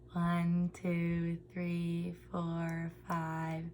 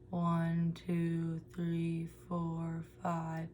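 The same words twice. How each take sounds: First: It is said with the lips spread back. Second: It is said with the lips pushed forward. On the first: "with our lips retracted" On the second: "and then protruded at the same pitch"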